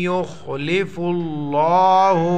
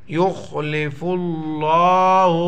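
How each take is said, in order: Both takes have the same delivery.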